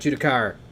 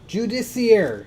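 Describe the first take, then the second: First: The name is said with three syllables. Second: The name is said with four syllables. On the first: The speaker calls it wrong. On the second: The speaker calls it right.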